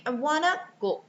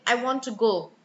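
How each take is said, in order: First: "want to" merged into "wanna" in "I wanna go"; weak sounds. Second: "I want to go" with "want" and "to" fully pronounced; full grammar words. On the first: Teacher models native-like weak sounds, "want to" as "wanna". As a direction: reduce "want to" to a quick "wanna". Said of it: "you should be saying". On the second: Teacher shows what to avoid, unreduced "to" in "I want to go". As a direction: say every word of "I want to go" distinctly, full "to". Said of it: "rather than saying". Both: Shown as a demonstration.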